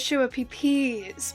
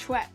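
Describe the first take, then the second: First: The word is read out letter by letter. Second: The word is said in its usual short form. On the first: The name is misread from its spelling. The speaker calls it wrong. "I think it was Schwapeepees" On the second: This is the accepted pronunciation of the name. The speaker calls it right. "because it's Schweppes"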